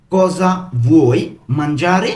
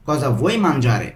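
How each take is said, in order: First: Slow "Cosa ... vuoi ... mangiare?", each word distinct; broken into pieces. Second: Said in the usual way. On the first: Shown as a demonstration. Teacher putting the question together for learners, word by word. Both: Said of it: "আমি কিন্তু ভেঙে ভেঙে বলছি".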